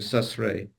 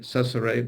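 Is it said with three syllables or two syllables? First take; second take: two; three. First: It is said with only two syllables. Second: It is said with three even syllables. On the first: "you're hearing ça serait da da" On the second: "would be da da da"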